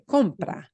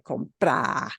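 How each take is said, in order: First: The stress is on the first syllable. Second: The stress is on the second syllable. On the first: The speaker calls it right. "you say compra" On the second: The speaker calls it wrong. "you don't say compra"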